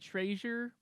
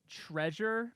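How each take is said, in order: First: The word is said in a local Utah accent. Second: The word is said in a standard, non-local way. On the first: "the native Utah, will say treasure" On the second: "there are just some words like treasure"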